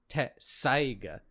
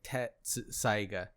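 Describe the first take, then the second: First: A lengthened s sound comes before saiga. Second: A full ts sound comes before saiga. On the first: The speaker calls it right. "it should have been "tesaiga," so there's a more s" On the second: The speaker calls it wrong. "if you read it like that, it reads like Tetsaiga"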